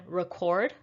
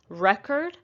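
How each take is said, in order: First: Record as rih-KORD, full O in the end syllable; stress on second syllable. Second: Record as REK-erd, short E; stress on first syllable. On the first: Teacher showing the vowel change, record stressed on KORD. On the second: Teacher showing the vowel change, record stressed on REK. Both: Shown as a demonstration. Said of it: "the vowel sounds also change".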